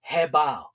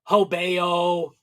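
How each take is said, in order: First: The name begins with a 'heh' sound. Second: The name begins with a 'ho' sound. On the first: The speaker calls it right. "It's actually pronounced" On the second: The speaker calls it wrong. "a lot of people pronounce that the name of that company"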